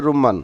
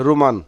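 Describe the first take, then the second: First: রুম্মান with a doubled, held mm; correct pronunciation. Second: রুমান with a short single m; রুমান said quickly, the m not held; short-m Saudi form রুমান. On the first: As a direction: hold the m in রুম্মান. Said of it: "সঠিক উচ্চারণ হচ্ছে রুম্মান". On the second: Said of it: "Saudi আরবে আপনারা দেখবেন রুমান". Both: Shown as a demonstration.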